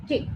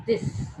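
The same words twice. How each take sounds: First: "Thick" with a light, voiceless th; light unvoiced TH. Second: "This" with a stressed, voiced th. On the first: Teacher showing the difference in TH, light unvoiced TH. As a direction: let the th of "Thick" float without vibration. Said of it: "very light and is on the". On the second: Teacher showing the difference in TH, stressed voiced TH. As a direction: press a vibrating th to open "This". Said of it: "this T H is stressed". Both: Shown as a demonstration.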